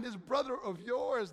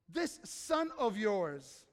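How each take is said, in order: First: Slow, brother stressed with a falling tune. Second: Very slow, drawn-out, scornful this; judgmental scorn. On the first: Shown as a demonstration. Preacher showing how the father turns the phrase, brother stressed. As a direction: lean on brother to bring him close. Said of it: "See how he turns it?". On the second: Retold or imitated. Preacher voicing the older son's scorn, slow and contemptuous. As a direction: drag it out with contempt. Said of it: "the spirit of judgmentalism".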